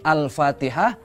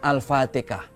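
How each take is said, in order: First: The h sound is pronounced clearly. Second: The h sound is dropped or softened.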